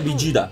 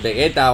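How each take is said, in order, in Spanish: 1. El nombre se dice con pronunciación japonesa. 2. El nombre se dice con pronunciación latinoamericana. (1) "en japonés, como bien hemos escuchado antes, se pronuncia Vegeta" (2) "Creo que en Latinoamérica es Vegeta o algo así"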